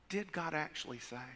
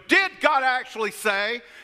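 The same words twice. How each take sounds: First: The words are said in almost a whisper. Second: The words are said in a big, loud voice. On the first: A snake is saying it. "Almost a whisper" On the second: A lion is saying it. "if he said the lion said it, the lion would go"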